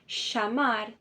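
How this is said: The double L sounds like sh. This is the Argentine and Uruguayan accent. "Argentina e do Uruguai, esse doble L ... equivale a um C H, a um S H"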